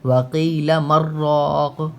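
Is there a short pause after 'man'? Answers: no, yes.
no. The words run together with no pause. "अगर हम इनको मिला के पढ़ेंगे तो सख्ता यहाँ पे नहीं करेंगे।"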